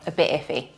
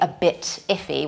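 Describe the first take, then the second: First: The T in 'bit' is dropped. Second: The T in 'bit' is clearly pronounced. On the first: The speaker calls it right. "we often drop the T" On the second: The speaker calls it wrong. "we don't say"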